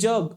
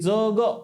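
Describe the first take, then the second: First: The first consonant is palatal, with a y-glide. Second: The first consonant is dental, without a y-glide. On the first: "जग मध्ये ज ला य लागल्यासारखा वाटतो" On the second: "इथं म्हणत असताना जग म्हणा लागते"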